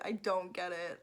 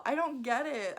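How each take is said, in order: First: Said in the usual way. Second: Loud exasperated I don't get it; louder, throwing up her hands. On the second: Real, not acted. Vlogger venting at book snobs, exasperated and louder. Repeated, emphatic then flat.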